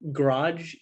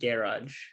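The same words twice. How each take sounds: First: It is said with an American pronunciation. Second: It is said with a British pronunciation. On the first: "instead of" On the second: "you would say like"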